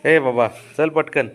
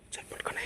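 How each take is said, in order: First: Drawn-out loud call to hurry up. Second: Hushed whisper to hurry. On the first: Owner calls the dog to hurry, loud drawn-out call. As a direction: call the dog over loudly and slowly. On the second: Owner whispers to the dog to hurry at night. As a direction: whisper so the society stays asleep. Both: Real, not acted.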